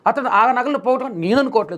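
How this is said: The stress is on the word for I.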